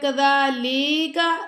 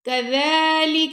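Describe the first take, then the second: First: The vowel after the l is drawn out. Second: No sound in the word is drawn out. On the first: The speaker calls it wrong. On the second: The speaker calls it right.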